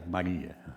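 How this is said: The name is called flatly and impersonally. The name is just being called out. "Não é um Maria, Maria"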